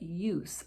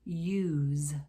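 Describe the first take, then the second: First: The word ends with a hissing S sound. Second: The word ends with a buzzing Z sound. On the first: It is the noun. "is a noun. It has the S sound" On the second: It is the verb. "use is a verb"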